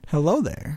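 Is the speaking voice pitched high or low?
low. It is said in a lower, natural voice.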